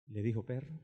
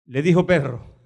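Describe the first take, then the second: First: Quiet shocked question. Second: Said in the usual way. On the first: Shown as a demonstration.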